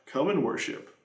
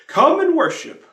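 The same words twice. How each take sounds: First: A hushed answer to the refrain; soft echo. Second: High, loud call of "Come and worship"; "Come and worship" cried out high and loud; ringing refrain. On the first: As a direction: let the echo fall away quietly. Echoed refrain. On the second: Hymn refrain. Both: Acted.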